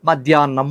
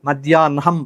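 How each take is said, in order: First: A doubled n is said with no h. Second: The n sound comes before the h. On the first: It is how ordinary people say it. "నాకు నావత్తిచ్చేసి ఆ రెండు సమస్యలను దాటేశారు" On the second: It follows a prescribed reading rule. "హాకు నావత్తున్న నాకు హావత్తులాగా పలకాలి"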